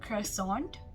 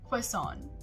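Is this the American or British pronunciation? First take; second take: American; British. First: It is said with an American pronunciation. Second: It is said with a British pronunciation. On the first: "in the American pronunciation, we say it as croissant" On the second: "in the British pronunciation, we say it as croissant"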